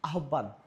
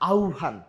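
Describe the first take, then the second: First: The word starts without an 'au' glide. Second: The word starts with an 'au' glide. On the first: The speaker calls it wrong. "আরেকটা শব্দ আছে যেটা আমরা খুব বেশি ভুল করি" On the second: The speaker calls it right. "না, এটা হচ্ছে আহ্বান। কি হবে? আউ"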